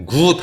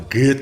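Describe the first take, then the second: First: 'good' drawn out with a rounded 우; wrong rounded vowel. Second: 'good' with a relaxed 으-like vowel; unrounded vowel. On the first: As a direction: say 'good' as a long Korean 구. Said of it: "good 하지 않죠?". ('good'을 동그란 우로 길게 늘여서) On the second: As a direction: say 'good' like 귿, lips not rounded. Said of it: "으로 발음합니다". ('good'을 으에 가깝게, 귿처럼) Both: Shown as a demonstration.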